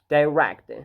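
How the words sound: It is said with a British accent. "in British English it is like direct"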